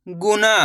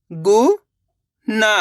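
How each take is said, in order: First: Said in the usual way. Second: गुना split as गु, pause, ना, rising on गु; syllable by syllable. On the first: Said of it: "इनको आपस में लगा पढ़ना है". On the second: Shown as a demonstration. Teacher teaching how to read, गुना broken into syllables. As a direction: sound out गुना in two separate syllables. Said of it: "एक अक्षर का उच्चारण करके".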